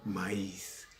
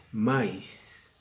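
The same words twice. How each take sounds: First: "maíz" slowly in two syllables, ma-ÍS; hiatus in maíz. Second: "maíz" run into one syllable, MAIS; diphthong mispronunciation. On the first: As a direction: stress the í of "maíz", apart from the a. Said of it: "Estoy diciendo maíz". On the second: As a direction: say "maíz" as one beat, stressed on the a. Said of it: "No estoy diciendo maíz". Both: Shown as a demonstration.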